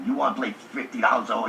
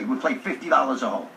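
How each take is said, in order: First: Fast, disbelieving repeat of the bet; incredulous echo. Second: Said in the usual way. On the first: Retold or imitated. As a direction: rattle it back in disbelief. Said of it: "I said". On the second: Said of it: "Taylor says to me".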